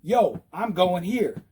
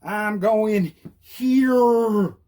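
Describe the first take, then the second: First: Slow, deliberate announcement; measured, insistent call; drastic signal. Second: Hugely stretched words, HERE held long; very slow, hammed-up announcement; leaning into it. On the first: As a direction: spell out the turn to drivers. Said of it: "I'll go drastic". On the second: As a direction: drag HERE right out, exaggerated. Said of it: "Lean into it so they know". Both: Shown as a demonstration.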